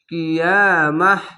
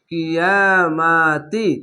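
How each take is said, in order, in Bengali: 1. শব্দটি 'h' উচ্চারণে শেষ হয়। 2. শব্দটি 'ti' উচ্চারণে শেষ হয়। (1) "গোলতা থাকলে থামতে গেলে হা হয়ে যায়" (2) "আর মিলিয়ে পড়তে গেলে তাজের তি"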